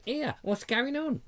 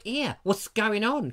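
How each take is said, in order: First: A lightly put-on silly nosy neighbour, higher and slower; mock nosy "Here, what's going on?" drawn out and raised. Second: Said in the usual way. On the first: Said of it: "Like in a silly voice like that". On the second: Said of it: "I didn't have the guts to go over and say".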